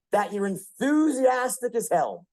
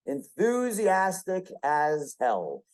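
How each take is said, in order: First: Said in the usual way. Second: Enthusiastic as hell, slowed right down; slow emphatic repeat. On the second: Shown as a demonstration. Speaker drills trait to audience, slow and stressed. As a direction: lean on each word slowly, enthusiastic first.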